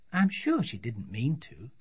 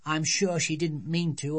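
First: Lightly voiced, reasoning mum; placating mother. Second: Little girl lightly mimicking Mum's excuse; child quoting parents. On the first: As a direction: gently excuse the other child as a parent. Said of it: "said her mother". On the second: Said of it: "They'd only say".

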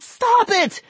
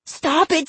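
First: Even higher, louder repeat; a boy's panicked scream, escalating. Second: Put-on a boy screaming at the dummy. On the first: Acted. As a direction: push the scream up further. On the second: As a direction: yell it in panic. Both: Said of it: "Vinny screamed".

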